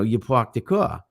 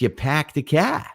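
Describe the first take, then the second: First: It is said in a New York accent. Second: It is said in a Boston accent. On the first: "like in in in uh, New York, it's" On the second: "In in um, Boston, it's"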